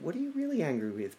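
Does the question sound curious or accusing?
curious. It sounds like a gentle, curious question.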